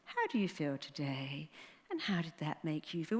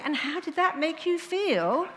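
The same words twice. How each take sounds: First: Soft, lower, droning therapist voice, a touch mocking; lightly mock a dull shrink; imitating a psychiatrist. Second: Much higher and louder, sing-song exasperated parody; mock psychiatrist. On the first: Mocking psychiatrists to the audience, soft droning therapist voice. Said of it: "So when you do that psychiatrist". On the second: Ridiculing a psychiatrist's stock question, high loud sing-song mockery. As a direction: lampoon the stuck therapist. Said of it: "So I just keep saying".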